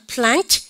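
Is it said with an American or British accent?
American. It has the American flat front vowel.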